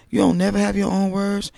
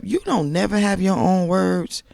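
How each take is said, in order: First: "You" punched high at the start; stress on you. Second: "don't" leaned on, higher and louder; stress on don't. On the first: Vlogger repeating the scold, punching "You". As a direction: land on "You". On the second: Vlogger scolding Tisha, pushing "don't". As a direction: hit "don't" hard. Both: Real, not acted. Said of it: "repeated with new stress".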